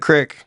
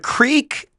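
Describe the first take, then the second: First: The vowel is short, like 'crick'. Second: The vowel is long, like 'creek'. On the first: It names an actual stream of water. "So you call an actual creek a crick?" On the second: "you said the Creek Nation"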